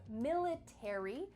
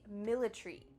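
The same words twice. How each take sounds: First: All final letters are pronounced, American style. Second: The A is dropped, British style.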